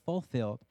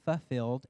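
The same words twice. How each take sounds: First: The first L sound is clearly pronounced. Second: The first L sound is left out. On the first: The speaker calls it right. "instead of fulfilled" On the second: The speaker calls it wrong. "I leave out that first L and I say fulfilled"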